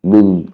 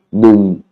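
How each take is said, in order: First: "nung" again with the same low falling tone; low tone demo. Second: "nung" said with a low, falling tone; low tone demo. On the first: Teacher repeating "nung" for students, low and falling. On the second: Teacher showing students the tone of "nung", low and falling. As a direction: drop the pitch on "nung" and let it fall. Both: Shown as a demonstration. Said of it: "intonation basse".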